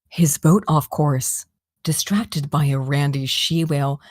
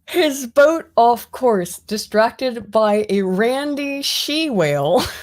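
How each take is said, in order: First: It is read in a put-on character voice. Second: It is read in the speaker's natural voice. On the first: The speaker calls it right. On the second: The speaker calls it wrong.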